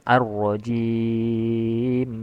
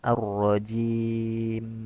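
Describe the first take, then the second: First: The final m is held with a long hum. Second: The final m is short and clear. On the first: The speaker calls it wrong. "Jangan ar-rajim" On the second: The speaker calls it right. "jelaskan pengucapan huruf mim sukun dan jangan dipanjangkan gunnahnya"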